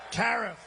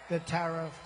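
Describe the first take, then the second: First: Tariff drawn out and a bit louder; savoured tariff. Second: Said in the usual way. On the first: Shown as a demonstration. Rally crowd told the loveliest word, relished. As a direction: lean into the word tariff like a prize. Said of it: "The most beautiful word".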